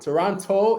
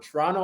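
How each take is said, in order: First: It is said in an American way. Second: It is said like a suburban Toronto-area local. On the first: The speaker is from the United States. "Toronto is someone who's like from the States" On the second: The speaker is from the outskirts of the city. "Toronto is like you're from Hamilton or like Oakville, somewhere in the G T A"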